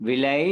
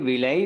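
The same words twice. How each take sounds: Both takes have the same delivery.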